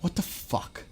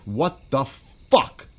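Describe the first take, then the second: First: Whispered under the breath in disbelief; stunned whisper. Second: Very slow, stretched, louder What rising at the end; drawn-out disbelief. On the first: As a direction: breathe it out, barely voiced. Stunned reaction, repeats the phrase. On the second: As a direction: drag every word out in outrage. Stunned reaction, repeats the phrase louder. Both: Real, not acted.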